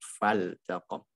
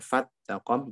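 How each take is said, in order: First: The l sound is kept clearly before the t. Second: The l sound is merged into the t. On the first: The speaker calls it right. "tapi fal taqom" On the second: The speaker calls it wrong. "jangan di idgham, jangan fat taqom"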